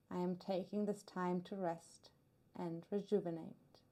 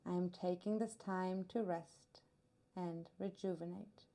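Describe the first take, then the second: No difference in how they are said.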